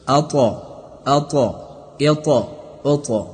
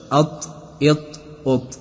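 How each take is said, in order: First: اطا with a clear echo bounce released on the ط; bouncing ط. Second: اط cut off dead with no bounce on the ط; wrong flat ط. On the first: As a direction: show the correct bounce on the ط. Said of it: "حرف طا از حروف قلقله است". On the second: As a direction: demonstrate the wrong unbounced اط. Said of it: "این قسم تلفظ نشود". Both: Shown as a demonstration.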